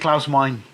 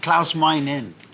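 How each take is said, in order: First: The surname sounds like the single word mine. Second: The surname sounds like mine with an added syllable. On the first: The speaker calls it wrong. "I used to say Klaus Meine" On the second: The speaker calls it right. "it's actually mine in"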